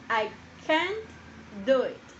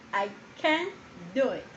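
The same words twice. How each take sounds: First: "can't" pulled out alone, raised and held; slow, stressed can't. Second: Said in the usual way. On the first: Shown as a demonstration. Teacher slowing down so the class hears "can't". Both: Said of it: "Hay que tener mucho cuidado con la pronunciación".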